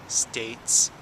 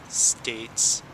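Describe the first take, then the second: Both takes have the same delivery.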